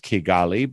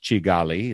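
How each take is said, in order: First: The name is said the English-speaker way. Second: The name is said the usual local way. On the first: "we would pronounce it as Kigali" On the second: "more normally it's pronounced Kigali"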